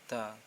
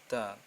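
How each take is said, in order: First: The consonant is blurred between D and T. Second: The consonant is blurred between D and T.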